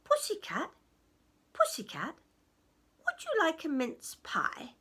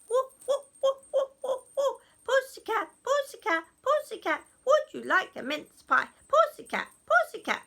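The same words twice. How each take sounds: First: Lightly voiced goblin offering food; a hint of a coaxing goblin. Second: High, loud goblin clamour; shrieky excited goblin chant. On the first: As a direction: call the cat over, slightly raised voice. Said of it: "and he said". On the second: Acted. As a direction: pester the cat all at once, high and loud. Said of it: "they got really excited".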